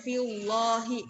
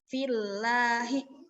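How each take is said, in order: First: The l sound is thick and heavy. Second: The l sound is thin and light. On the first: The speaker calls it wrong. "Jadi jangan" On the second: The speaker calls it right. "dia tipis"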